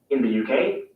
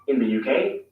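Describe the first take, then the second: No difference in how they are said.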